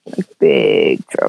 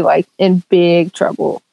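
First: Much lower, slow, heavy on big; mock-grave low warning; ominous low repeat. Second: Said in the usual way. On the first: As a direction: drop the voice deep and slow for doom.

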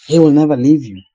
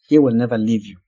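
First: He will never leave you, louder, with the stress on "will"; emphatic repeat. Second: Said in the usual way. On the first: Shown as a demonstration. Preacher repeating the promise to the congregation, louder and emphatic. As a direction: hammer the promise home, pressing on "will". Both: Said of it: "just to emphasize the fact".

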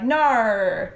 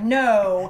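First: "No" pushed forward, jaw kept up, Australian style. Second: "no" drawn out long with the jaw dropped; American O. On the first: Actor contrasts Australian vowels, "No" shot out forward. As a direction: shoot the O of "No" out to the front. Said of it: "it's just shooting out in front of you". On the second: Actor teaches American vowels, jaw-dropped long "no". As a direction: open the O wide in "no", American style. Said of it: "you, like, really drop your jaw". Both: Shown as a demonstration.

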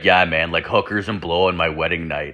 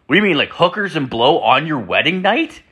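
First: Low, falling, resigned admission; acted-out sheepish buddy owning up; matter-of-fact confirmation. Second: High, rising disbelief; acted-out incredulous friend; incredulous question. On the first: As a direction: confirm it like it's no big deal. Friend matter-of-factly confirms it. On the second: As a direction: question it as if you can't believe your ears. Incredulous reply to friend's confession.

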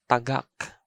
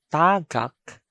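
First: Tagak with short TA, stressed GAK; stress on second syllable. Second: Tagak with long TAA; TAA-gak; stress on first syllable. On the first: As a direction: put the weight on the end of tagak. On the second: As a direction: stretch the first vowel of tagak. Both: Shown as a demonstration. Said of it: "I'm going to read".

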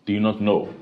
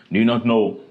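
The two takes are said the same way.

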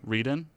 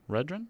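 First: "Reedon" with a long ee, questioning rise; silent W. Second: "Redrin" with a short e and an r after the d, questioning rise; unsure pronunciation. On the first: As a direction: try "Reedon" with a plain R and long first vowel, asking. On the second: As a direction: try "Redrin" as a questioning guess, short first vowel. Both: Shown as a demonstration. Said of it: "Probably don't pronounce the W".

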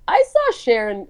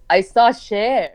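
First: Inaccurate mom impression. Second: Put-on lightly accented Iranian English, pitch kept down; a hint of an Iranian mother's accent; Iranian mom's accent. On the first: Daughter retelling mom's celebrity story, inaccurate squeaky impression. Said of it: "she doesn't say it like that". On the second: Daughter correcting her impression of mom, light Iranian accent. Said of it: "She goes".

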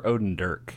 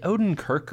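First: "Odendirk" with a d in place of the k. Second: "Odenkirk" with a hard k starting the last syllable. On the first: Co-host offering his mistaken surname, "Odendirk" said with a d. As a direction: say "Odendirk" ending in "dirk". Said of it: "I always thought it was Odendirk". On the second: Co-host checking an actor's surname, "Odenkirk" said with a k. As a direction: say "Odenkirk" ending in "kirk". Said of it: "is it Odenkirk or Odendirk". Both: Shown as a demonstration.

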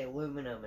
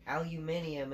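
First: "aluminum" without the extra i; American pronunciation. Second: "Aluminium" with an extra i before the last syllable; British pronunciation. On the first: Contrasting with England, "aluminum" said the American way, uh-LOO-muh-num. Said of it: "how they say aluminum". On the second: Explaining the English word, "Aluminium" said al-yoo-MIN-ee-um. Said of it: "how they say aluminum in, uh, England". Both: Shown as a demonstration.

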